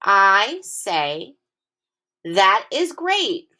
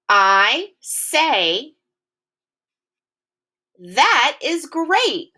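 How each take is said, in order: First: Slow, lifted "That is great"; excited exclamation again. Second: Slow, high, excited "That is great"; excited exclamation. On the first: Teacher repeating the sentence so kids hear the exclamation. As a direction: say it slowly with excitement. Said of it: "I will say it again". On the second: Teacher modelling an exclamation for kids, slow and excited. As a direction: stretch it out with big excitement. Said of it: "Listen to the tone of my voice". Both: Shown as a demonstration.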